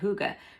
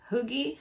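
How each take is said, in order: First: The word ends with an 'uh' sound. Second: The word ends with an 'ee' sound. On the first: The speaker calls it right. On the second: The speaker calls it wrong.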